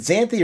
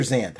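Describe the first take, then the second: First: Xanthi said as two syllables; alternative pronunciation. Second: Xanth said as one syllable; alternative pronunciation. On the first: Host asking how the name is said, Xanthi with an "ee" ending. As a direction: sound the final "ee" in Xanthi. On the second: Host asking how the name is said, Xanth cut to one syllable. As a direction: end Xanth on the "th", no vowel after. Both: Shown as a demonstration. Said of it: "How are you pronouncing this?".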